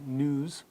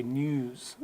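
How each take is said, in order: First: News as nooz, no y; American news. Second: News as nyooz, longer vowel; British news. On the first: Teacher giving the American news. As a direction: say news with a plain oo, no glide. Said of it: "So Americans say". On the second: Teacher giving the British news. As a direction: stretch news with a y glide and long oo. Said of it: "where the British say". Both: Shown as a demonstration.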